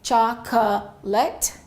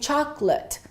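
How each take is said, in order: First: Every vowel is pronounced, giving three syllables. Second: The middle vowel drops, giving two syllables. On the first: The speaker calls it wrong. "we don't say chocolate" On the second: The speaker calls it right. "We reduce it to two syllables"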